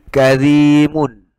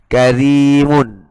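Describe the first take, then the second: No difference in how they are said.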